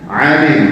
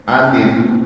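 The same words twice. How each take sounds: First: "alim" starting on a pharyngeal ain. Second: "alim" starting on a plain glottal alif; no throat squeeze on the first vowel of "alim". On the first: Teacher pointing students to the ain in "alim". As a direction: squeeze the throat on the first vowel of "alim". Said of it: "Lihat ainnya". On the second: Teacher contrasting letters for students, "alim" with alif. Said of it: "alif ya". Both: Shown as a demonstration.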